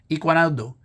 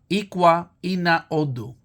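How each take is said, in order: First: The words are said fast, merged into one. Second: The three words are said separately and slowly.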